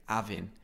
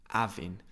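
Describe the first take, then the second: The two takes are said the same way.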